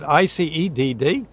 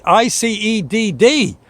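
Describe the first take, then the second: First: Quick questioning repeat of I C E D D; puzzled echo. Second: Slow, higher, letter by letter; spelling it out slowly. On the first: Narrator questioning the odd code back to the dispatcher. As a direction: echo the letters back, baffled. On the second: Dispatcher spelling the code slowly for the ambulance crew. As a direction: drag out each letter of I C E D D. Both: Retold or imitated.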